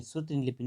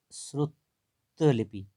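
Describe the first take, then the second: First: श्रुति लिपि with an "i" ending on श्रुति; wrong extra vowel. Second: श्रुत, a pause, then लिपि, with no "i" on श्रुत; correct split form. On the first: Teacher rejecting a misspelling, wrong extra-vowel demo. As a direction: sound the final "i" in श्रुति before लिपि. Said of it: "नहीं होती है". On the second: Teacher showing the right spelling, chunked corrected form. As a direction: break after श्रुत, keeping its ending bare. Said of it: "ऐसे ई की मात्रा नहीं आएगी". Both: Shown as a demonstration.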